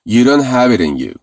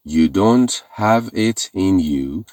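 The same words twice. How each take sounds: First: The words are reduced and run together. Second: Each word is said separately and clearly.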